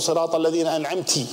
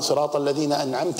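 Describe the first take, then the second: First: The final verb ends with an 'i' vowel. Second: The final verb ends with an 'a' vowel. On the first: The favor is from a woman. The speaker calls it wrong. "جعلت امرأة هي المنعمة" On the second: The favor is from the addressed Lord. The speaker calls it right. "أنعمت أنت يا رب"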